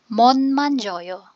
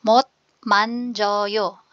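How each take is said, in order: First: The first word ends with an n sound. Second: The first word ends with a t sound.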